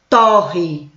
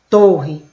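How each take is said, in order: First: The stressed vowel is an open o. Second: The stressed vowel is a closed o. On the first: To toast or burn something. "Agora eu vou mudar a pronúncia" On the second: A tall, narrow building. "olha a pronúncia fechada"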